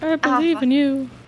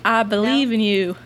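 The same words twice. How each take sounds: First: It is said in a put-on character voice. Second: It is said in the speaker's natural voice. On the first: A fictional character is saying it. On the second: The real person is saying it.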